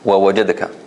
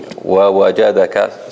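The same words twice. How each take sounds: First: It is said fast, with letters swallowed. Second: It is said slowly, with every letter clear. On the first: The speaker calls it wrong. "because they go too fast, so they will kind of eat a little bit of the word" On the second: The speaker calls it right. "if you read it slowly, so that every letter is clear and nice"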